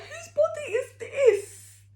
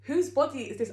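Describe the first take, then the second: First: High, loud wailing cry mixed with laughter; half-laughing, hammed-up sob at the mirror; mock wail. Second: A touch of retold despair, mildly raised; mock dismay. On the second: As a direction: repeat it, calming a little but still upset. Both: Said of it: "looked in the mirror and started crying".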